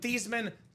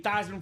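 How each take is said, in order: First: The name does not rhyme with Heisman. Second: The name rhymes with Heisman. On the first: This is the family's original pronunciation. "We'll change your name from Thiesman" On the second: This pronunciation was changed to match a trophy. "so it could be Theismann for the Heisman"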